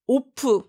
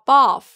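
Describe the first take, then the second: First: An extra vowel follows the final f. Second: The word ends cleanly on the f. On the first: The speaker calls it wrong. "오프 아니죠?" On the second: The speaker calls it right. "정확히 발음하시고"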